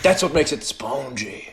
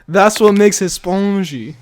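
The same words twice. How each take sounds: First: Slow French accent imitation. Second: Hammy fake French accent, slow; terrible French accent. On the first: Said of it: "with such pride after you said that one". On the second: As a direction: slowly ham up a French accent. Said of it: "That was a terrible French accent".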